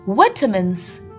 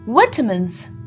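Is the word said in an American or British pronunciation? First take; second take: British; British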